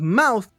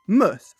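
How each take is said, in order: First: The vowel sounds like 'ow' in 'cow'. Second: The vowel is a short, weak 'uh' sound. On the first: "it's spelled mouth" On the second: "we say muth"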